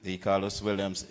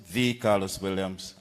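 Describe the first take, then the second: First: Said in the usual way. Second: "the" stressed as "thee" before Carlos Williams. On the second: Shown as a demonstration. Candidate tells crowd which Carlos Williams, stress on "the". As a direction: lean on "the" to set this one apart. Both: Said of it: "as I often will emphasize".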